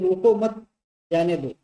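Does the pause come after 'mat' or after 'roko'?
after mat. The pause comes after the word 'mat'. Do not stop him; let him go. "इसका मतलब ये हो रहा है कि रोको मत, उसको जाने दो"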